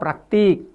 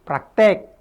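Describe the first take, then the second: First: The last syllable has an 'i' vowel. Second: The last syllable has an 'e' vowel. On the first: The speaker calls it right. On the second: The speaker calls it wrong.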